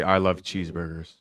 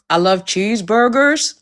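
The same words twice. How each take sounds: First: American accent demo. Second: Attempted American accent, a bit higher and slow; bad American accent. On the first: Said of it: "give us your best American accent". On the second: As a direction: try a shaky American accent on cheeseburgers. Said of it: "Rate her American accent". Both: Shown as a demonstration.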